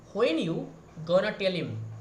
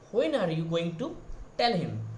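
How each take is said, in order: First: It is quick, dropping are and reducing to gonna. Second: Every word is said fully, including are and going to. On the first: "modify your pronunciation, you can say ... It is very very very fast" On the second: "As an Indian, we are saying that"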